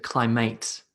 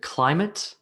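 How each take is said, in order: First: Cly-MATE, rhyming with "late"; "climate" with a full, stressed MATE; second-syllable stress. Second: CLY-mit, rising as a question; weight on "cli" in "climate", weak ending; "climate" offered with the first syllable strong; first-syllable stress. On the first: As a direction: lean on the end of "climate". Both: Shown as a demonstration. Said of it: "first syllable or the second syllable".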